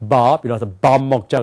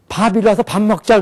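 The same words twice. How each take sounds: First: The initial b sound is voiced. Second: The initial b sound is voiceless. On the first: "영어를 쓴 사람은 밥이라서 밥 먹자 그런단 말이에요" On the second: "한국 사람들이 이래"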